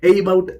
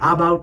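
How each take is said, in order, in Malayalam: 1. ആദ്യത്തെ സ്വരം ay ശബ്ദമാണ്. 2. ആദ്യത്തെ സ്വരം പൂർണ്ണമായ ah ശബ്ദമാണ്. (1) "എയ്ബൌട്ട് എന്നല്ല നമ്മൾ പറയുന്നത്" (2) "കാറിൽ കണ്ട ആ സൗണ്ട് അല്ല"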